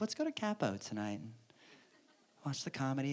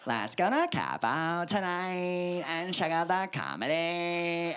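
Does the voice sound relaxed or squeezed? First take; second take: relaxed; squeezed. First: The voice sounds plain and relaxed. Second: The voice sounds tight and squeezed.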